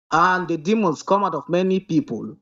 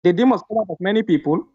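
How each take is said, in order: First: Slower reading. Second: Reading fast. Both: Real, not acted. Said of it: "Don't, don't speak fast".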